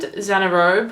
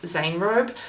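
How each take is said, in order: First: The name is said with three syllables. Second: The name is said with two syllables. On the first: The speaker calls it wrong. "Xanarobe is what we've been saying" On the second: The speaker calls it right. "I'm pretty sure it's pronounced Zanerobe"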